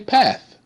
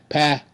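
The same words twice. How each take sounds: First: The final th is an unvoiced, breathy sound. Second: The final th is a voiced, buzzing sound. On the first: The word is being said normally as a whole. "you just say path, and you don't hear the th" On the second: The word is being sounded out piece by piece. "That's blend"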